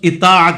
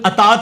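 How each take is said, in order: First: The first vowel is an 'i' sound. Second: The first vowel is an 'a' sound. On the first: The speaker calls it right. "वो लफ्ज इतात होगा" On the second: The speaker calls it wrong. "फिर अतात नहीं होगा"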